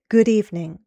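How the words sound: The pitch falls at the end. "More formal English uses falling intonation"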